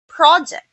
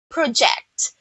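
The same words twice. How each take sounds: First: The stress is on the first syllable. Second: The stress is on the second syllable. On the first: It names a thing, a plan or task. "if you mean the the noun" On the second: It names an action of pointing something out. "you mean a verb or an action"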